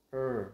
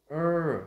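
First: "er" short, light, at an everyday pitch; relaxed er. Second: "er" high, loud and long; tense stressed er. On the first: Teacher contrasting two sounds, relaxed short er. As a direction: release "er" loosely without stress. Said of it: "thì thật thả lỏng thôi". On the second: Teacher contrasting two sounds, tense loud er. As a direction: push "er" out with a forceful tongue. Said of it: "lưỡi của mình sẽ phải dùng lực khá là nhiều". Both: Shown as a demonstration.

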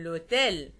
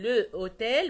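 First: "لوتيل" run together as a single word; elided into one word. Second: "لو اوتيل" said as two words, the vowels kept apart; two separate words. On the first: Teacher showing students the correct elision, "لوتيل" joined as one word. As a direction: drop the article's vowel, l straight into "لوتيل". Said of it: "بقول". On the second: Teacher showing students the form to avoid, "لو اوتيل" unelided. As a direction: keep a full "لو" before "اوتيل", unjoined. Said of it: "بدل ما اقول". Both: Shown as a demonstration.

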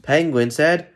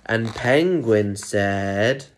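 First: PENGUIN SAID raised and rising, without stretching; brisker lead-in. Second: AND PENGUIN SAID drawn right out, rising; suspenseful build-up. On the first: Storyteller resuming before Penguin's last word, brisker lead-in. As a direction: pick up "Penguin said" brightly to cue the quote. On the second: Storyteller teasing Penguin's last line, suspenseful build-up. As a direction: stretch "Penguin said" slowly and leave it hanging. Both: A narrator's reading.

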